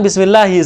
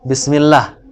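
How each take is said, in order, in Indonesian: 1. Kata ini berakhir dengan vokal i pendek. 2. Kata ini berakhir dengan konsonan, vokal akhir dihilangkan. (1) "Itu kan bismillahi seharusnya kan?" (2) "Cuman waqaf jadi akhirnya seakan-akan tidak dibaca kasarnya karena waqaf"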